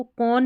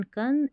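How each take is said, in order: First: "कौन" with an open aw vowel; wrong O vowel. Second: "कन" with a short uh; short A vowel. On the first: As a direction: say "कौन" as kawn. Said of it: "कौन नहीं पढ़ना है". ("कौन" में औ की आवाज़) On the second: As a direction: say "कन" as kun. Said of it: "अब इसको कौन नहीं पढ़ना है". ("कन" में छोटा अ) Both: Shown as a demonstration.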